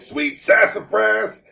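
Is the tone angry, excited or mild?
angry. It is said in a clearly angry tone.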